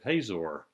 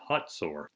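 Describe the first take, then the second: First: The middle consonant is a plain z sound. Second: The middle consonant is a ts sound.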